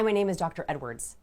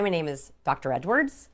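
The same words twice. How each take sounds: First: The voice falls at the end like a statement. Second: The voice rises at the end like a question. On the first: The speaker sounds confident and trustworthy. The speaker calls it right. "going on the downward inflection" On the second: The speaker sounds unsure of their own name. The speaker calls it wrong. "they asked their names"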